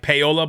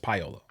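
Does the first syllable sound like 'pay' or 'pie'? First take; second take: pay; pie. First: The first syllable sounds like 'pay'. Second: The first syllable sounds like 'pie'. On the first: The speaker calls it wrong. "I kept saying pay like payola" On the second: The speaker calls it right. "but it's Payola"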